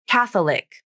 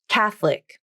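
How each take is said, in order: First: The middle vowel is kept, giving three syllables. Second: The middle vowel is dropped, giving two syllables. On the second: "I prefer to use the pronunciation with vowel syncope"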